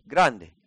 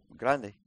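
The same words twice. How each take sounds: First: "Grande" repeated with a louder punch; emphatic GRANDE. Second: Said in the usual way. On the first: Real, not acted. Preacher underlining how big the problem is, emphatic "Grande". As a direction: hit "Grande" harder.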